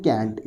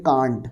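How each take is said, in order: First: "can't" with a front vowel, as kant in "cat"; accent variant. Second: "can't" with a long open ah, kahnt; accent variant. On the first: Teacher shows how some people speak, "can't" with a short front a. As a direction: say "can't" like kaent. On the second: Teacher shows another accepted variant, "can't" said as kahnt. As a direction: say "can't" with the vowel of "father". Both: Shown as a demonstration. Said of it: "कुछ लोग बोलते हैं".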